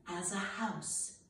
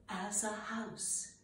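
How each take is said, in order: The two takes are said the same way.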